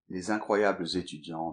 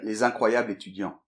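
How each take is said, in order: First: A z sound links incroyables to étudiants. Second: No z sound links incroyables to étudiants. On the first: It sounds more formal. "tout de suite, c'est, c'est autre chose" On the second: It sounds neutral. "dans un langage neutre, on ne fait pas la liaison. Donc, euh, on pourrait très bien dire"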